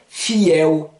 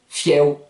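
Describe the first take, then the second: First: The word is said slowly and carefully. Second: The word is said quickly and smoothly.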